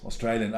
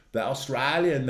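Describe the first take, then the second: First: Australian said the Aussie way; Australian with a long AY vowel. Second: Said in the usual way. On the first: Shown as a demonstration. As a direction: say Australian as aws-TRAY-lee-un. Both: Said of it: "They man, of course".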